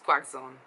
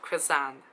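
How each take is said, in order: First: The word ends with a 'zone' sound. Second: The word ends with a 'sant' sound.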